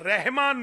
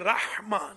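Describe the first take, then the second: First: The h is a plain, light breathy h. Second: The h is a tight, raspy throat sound. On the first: The speaker calls it wrong. "ये रहमान नहीं है" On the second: The speaker calls it right. "ये लाहौर वाली या दिल्ली वाली नहीं है, ये जीम की बहन है"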